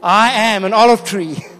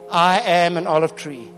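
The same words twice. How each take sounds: First: It is said with strong conviction. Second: It is said with little conviction.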